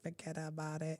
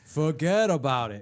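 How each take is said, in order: First: It is said in a Filipino accent. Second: It is said in a strong New York accent. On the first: The speaker calls it wrong. "they can't say it right. They're like" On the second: The speaker calls it right. "He goes"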